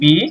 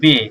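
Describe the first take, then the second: First: The vowel is a long 'ee' sound. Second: The vowel is an 'ay' sound. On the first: This is the English letter name. "ইংলিশে বলতাম" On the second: This is the German letter name. "যার মানে বলবো"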